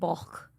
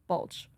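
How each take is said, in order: First: The name ends with a k sound. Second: The name ends with a ch sound. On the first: This is how the name is said in Welsh. "it's pronounced like bulk in Welsh" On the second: This is how the name is said locally. "but here it's like bulch"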